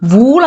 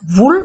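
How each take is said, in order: First: The vowel is long, like 'oo' in 'pool'. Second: The vowel is short, like 'oo' in 'book'. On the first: The speaker calls it wrong. "വൂൾ എന്നല്ല പറയുന്നത്" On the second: The speaker calls it right. "Short വവലാണ് വരുന്നത്"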